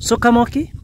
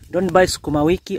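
First: The word is shortened to four syllables, su-ka-mo-ki. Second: The word has five syllables, su-ku-ma-wi-ki. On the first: "The people from West, you know, they pronounce it as a sukamoki" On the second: "You don't buy sukumawiki"

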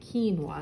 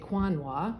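First: The word begins with a plain k sound. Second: The word begins with a kw sound. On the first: The speaker calls it right. "we say quinoa is how it's pronounced" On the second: The speaker calls it wrong. "So we don't say quinoa"

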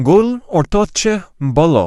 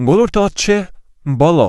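The two takes are said the same way.

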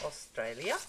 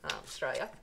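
First: The word is pronounced carefully and fully. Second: The word is pronounced in a broad Australian accent. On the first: "That's about the only time you'll hear me say Australia" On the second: "I have a very thick Australian accent"

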